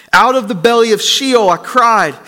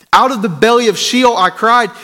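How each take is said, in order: No difference in how they are said.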